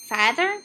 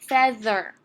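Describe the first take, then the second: First: The first vowel is a long A sound. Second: The first vowel is a short E sound. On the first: The speaker calls it wrong. "So let's try long A" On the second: The speaker calls it right. "It's going to make a short vowel that time"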